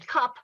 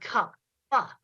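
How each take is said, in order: First: The word is said normally, final consonant unreleased. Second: The final consonant is exaggerated with an extra puff.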